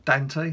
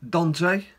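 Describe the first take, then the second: First: Dante with a short flat "a" as in cat; alternative pronunciation. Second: Dante with a broad "ah" first vowel; alternative pronunciation. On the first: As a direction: say Dante as DAN-tay. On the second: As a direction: say Dante as DAHN-tay. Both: Shown as a demonstration. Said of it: "however you wanna pronounce your name".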